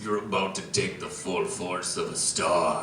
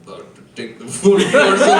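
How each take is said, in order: First: Very low, hushed dramatic delivery; deep and quiet, a grave movie warning; dramatic Peter Dinklage. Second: A light Dinklage impression to his wife; lightly put-on dramatic voice; mock-dramatic bedroom line. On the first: Acted. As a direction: intone it low and soft, with portent. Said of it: "he looks at Thor and he says". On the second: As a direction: play the movie line as a solemn announcement. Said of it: "looks his wife in the eye".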